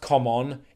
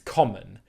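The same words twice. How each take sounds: First: The final vowel is a full o sound. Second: The final vowel is a weak schwa. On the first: The speaker calls it wrong. "It's not pronounced common" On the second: The speaker calls it right. "it's common. And it's the schwa sound at the end of the word"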